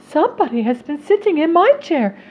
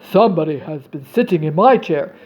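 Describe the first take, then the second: First: It is said in a medium-sized voice. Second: It is said in a big, deep voice. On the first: "said the middle-sized bear in a middle-sized voice" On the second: "said the great big bear in his great big voice"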